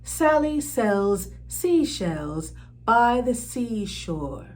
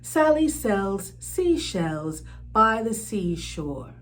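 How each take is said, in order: Both takes have the same delivery.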